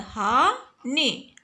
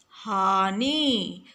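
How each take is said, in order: First: हानि with a short final इ, very slow; correct short i. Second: हानि with a long final ई, very slow; wrong long ii. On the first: Teacher giving pupils the right ending, slow. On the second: Teacher showing pupils the wrong ending, very slow. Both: Shown as a demonstration. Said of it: "हानि नहीं होता है".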